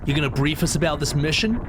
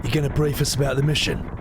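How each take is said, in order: First: Put-on young voice. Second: Ben Starr voice. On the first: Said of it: "keep this young voice for Cloud". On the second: Acted. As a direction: read it as Ben Starr would. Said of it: "I'm Ben Starr again".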